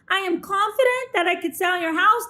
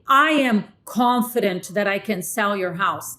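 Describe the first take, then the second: First: The pitch rises at the end. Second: The pitch falls at the end. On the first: The words and the delivery do not match. The speaker calls it wrong. "That's just weird. It's incongruent" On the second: The speaker sounds confident and authoritative. The speaker calls it right. "that's the downswing"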